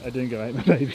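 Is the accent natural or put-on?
natural. It is said in a natural accent. "when I have an Australian accent"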